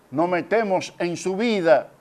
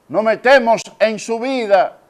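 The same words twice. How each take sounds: First: Said in the usual way. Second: Raised, louder and higher; emphatic preaching. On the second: Real, not acted. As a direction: drive it home to the congregation. Preacher repeats it more forcefully. (predicación enfática, con voz alzada)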